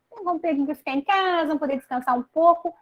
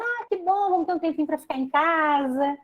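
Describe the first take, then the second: First: Higher and fast, gushing imitation; fast mock delight. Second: Higher, cheery imitated "Ah, que bom"; light pretend glee at staying home; mock delight. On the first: People excited to rest at home, fast higher gushing imitation. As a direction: rattle it off like an eager holiday-maker. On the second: People glad about lockdown, lightly voiced cheerful delight. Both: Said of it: "muitas pessoas dizendo".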